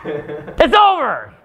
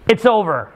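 First: "It's over!" stretched very slowly, despairing; drawn-out despair. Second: Said in the usual way. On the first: Shown as a demonstration. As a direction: drag the words out like a lament. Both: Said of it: "what does that do to my mood now".

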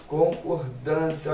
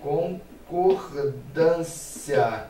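First: Said in the usual way. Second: Very slow, spelled-out word; drawn-out syllables. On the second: Shown as a demonstration. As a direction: stretch "concordância" out slowly, syllable by syllable. ("concordância" dita bem devagar, sílaba por sílaba)

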